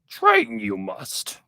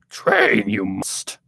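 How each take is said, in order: First: The voice is pitched higher. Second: The voice is pitched lower. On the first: The speaker calls it wrong. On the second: The speaker calls it right. "It's a lot more uh, lower"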